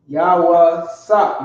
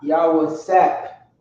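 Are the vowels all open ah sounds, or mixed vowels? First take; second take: all ah; mixed. First: Every vowel is an open ah sound. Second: Some vowels are not ah sounds. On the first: The speaker calls it right. "Hebrew has all ah sounds, strong ah sounds" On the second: The speaker calls it wrong.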